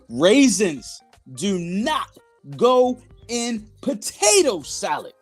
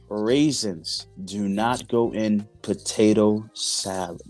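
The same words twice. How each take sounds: First: It is said loudly. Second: It is said softly.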